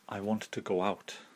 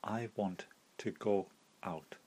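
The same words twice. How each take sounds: First: A W sound joins go and out. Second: No W sound joins go and out.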